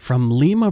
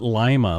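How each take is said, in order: First: Lima is pronounced the local, non-American way. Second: Lima is pronounced the way Americans say it. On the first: The speaker calls it right. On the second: The speaker calls it wrong.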